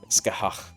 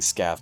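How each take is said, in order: First: The name is said with an unusual, non-English ending. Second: The name is said as a short English-sounding word. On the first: The speaker calls it right. "I was trying to say Skahach. ... the right way you say it is so particular" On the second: The speaker calls it wrong. "I'm so used to saying Scath"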